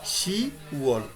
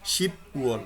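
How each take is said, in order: First: No p sound closes the first syllable. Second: A p sound closes the first syllable. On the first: The speaker calls it right. "বিয়োগটা নাই" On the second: The speaker calls it wrong. "শিপ বিয়োগটা কোথায়"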